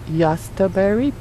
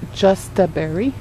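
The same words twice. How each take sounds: First: The word begins with a Y sound. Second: The word begins with a J sound. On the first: "it's pronounced Justaberry because it's a German word" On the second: "it's spelled"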